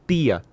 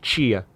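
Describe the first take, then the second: First: It is said in a northeastern Brazilian accent. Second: It is said in the speaker's own local accent. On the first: "em alguns lugares do Nordeste, as pessoas falam tia" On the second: "aqui nós falamos tia"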